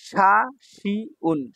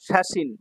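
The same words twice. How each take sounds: First: শাসিউন very slow, final n sounded separately; syllable-by-syllable. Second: Said in the usual way. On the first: Shown as a demonstration. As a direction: spell out শাসিউন in long separate beats. Teacher sounds out new word.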